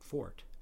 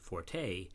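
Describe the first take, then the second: First: The word is said as one syllable. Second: The word is said as two syllables. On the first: "say fort" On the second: "so many people pronounce the word forte"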